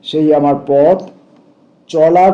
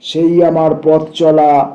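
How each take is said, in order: First: There is a short pause between পথ and চলা. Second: পথ and চলা run together without a pause. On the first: The hyphen marks a brief break. "একটু বিরতির hyphen." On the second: The hyphen joins the words into one. "যদি এটা সংযুক্তিকরণের hyphen হতো তাহলে পড়তাম এইভাবে"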